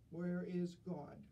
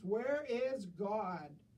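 First: It is said sternly at moderate loudness. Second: It is said very loudly and sternly.

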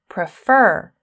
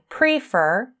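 First: The stress is on the second syllable. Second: The stress is on the first syllable. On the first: The speaker calls it right. "I say prefer. you can hear that the second syllable is stressed" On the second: The speaker calls it wrong. "I don't say prefer"

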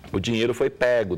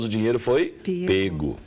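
First: The vowel in pego is said with an open sound. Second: The vowel in pego is said with a closed sound. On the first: This is the usage influenced by Portugal. "O som aberto, que é mais usado em Portugal" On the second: This is the common Brazilian usage. "com o som fechado"

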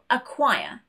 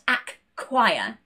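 First: The k sound is said only once. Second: The k sound is said twice. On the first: The speaker calls it right. "We only pronounce one of those K sounds" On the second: The speaker calls it wrong. "not acquire"

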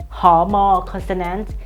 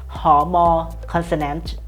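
No difference in how they are said.

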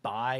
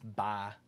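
First: The vowel is short, without a drawl. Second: The vowel is long and drawn out. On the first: "instead of saying bye" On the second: "my southern comes out. ... long, drawn out vowels"

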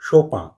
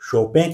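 First: The name ends in a nasal 'an' sound. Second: The name ends in a nasal 'en' sound. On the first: Other people say it this way. "तो कुछ लोग शोपां" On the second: Some people say it this way. "कुछ लोग शोपें कहते हैं"

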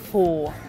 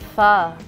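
First: The word does not sound like 'fuh'. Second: The word sounds like 'fuh', as in 'fuck'. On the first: The speaker calls it wrong. "nicht Pho" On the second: The speaker calls it right. "Es heißt Pho, ... Pho, wie fuck"

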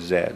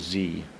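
First: It is said the British way, as zed. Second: It is said the American way, as zee.

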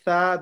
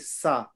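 First: The consonant is a soft 'th' sound. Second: The consonant is an 's' sound. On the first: The speaker calls it right. "Instead of people saying tha" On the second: The speaker calls it wrong. "they say sa. They make the tha into a sin"

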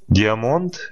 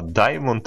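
First: The word begins with a 'dee' sound. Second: The word begins with a 'dye' sound. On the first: This is the speaker's habitual way of saying it. "это я так говорю" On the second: This is how it is supposed to be said. "это так надо"

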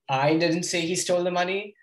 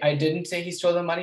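First: The word I is stressed. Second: The word didn't is stressed.

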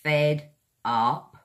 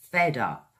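First: The two words are said separately. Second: The two words are joined into one. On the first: "Two separate words" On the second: "squash them together and make them one word"

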